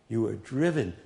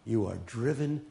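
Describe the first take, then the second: No difference in how they are said.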